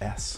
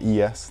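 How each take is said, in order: First: The name is said as one single sound. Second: The name is said as two separate letters. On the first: The speaker calls it right. "it's called S" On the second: The speaker calls it wrong. "This brand's not called E S"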